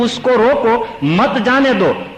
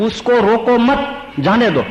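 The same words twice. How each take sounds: First: The pause comes after 'roko', before 'mat'. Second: The pause comes after 'mat', before 'jane'.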